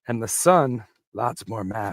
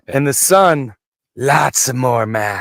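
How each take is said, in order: First: It is read flatly, with little feeling. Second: It is read with lots of feeling.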